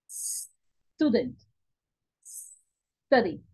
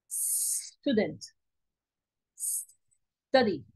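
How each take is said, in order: No difference in how they are said.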